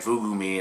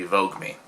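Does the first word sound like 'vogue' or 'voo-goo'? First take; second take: voo-goo; vogue. First: The first word sounds like 'voo-goo', two syllables. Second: The first word sounds like 'vogue', one syllable. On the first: The speaker calls it wrong. "I've been saying Vugu Me" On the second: The speaker calls it right. "it's meant to be Vogue Me"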